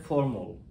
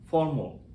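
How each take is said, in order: Both takes have the same delivery.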